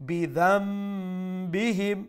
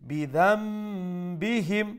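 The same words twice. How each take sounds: Both takes have the same delivery.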